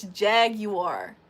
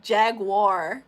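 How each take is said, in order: First: Jaguar in three slow beats, "JAG-you-ar"; corrected jaguar. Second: Jaguar in two drawn-out beats, "JAG-war"; American jaguar. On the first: Shown as a demonstration. Correcting the other way of saying it, jaguar as "JAG-you-ar". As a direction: stretch out jaguar with a "you" inside. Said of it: "It's jaguar". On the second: Retold or imitated. Mimicking how Americans say it, jaguar as "JAG-war". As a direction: stretch jaguar as "jag-wahr". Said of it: "You say it like jaguar".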